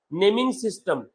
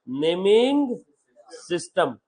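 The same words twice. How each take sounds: First: Said in the usual way. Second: "naming ... system" word by word, with a pause between; spaced-out repetition. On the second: Shown as a demonstration. Teacher repeating a new term to students, spaced out word by word. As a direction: draw out naming, pause, then drop on system.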